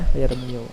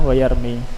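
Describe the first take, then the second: First: The word ends with an added u vowel. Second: The word ends without an added vowel. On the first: The speaker calls it wrong. "tapi berat" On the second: The speaker calls it right. "dihapus atau ditakdirkan dhammahnya"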